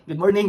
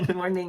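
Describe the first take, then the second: First: Good morning said higher and louder, bright and upbeat; a cheery mock greeting. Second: Said in the usual way. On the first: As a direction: sing out Good morning like a friendly officer. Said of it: "sabi niya".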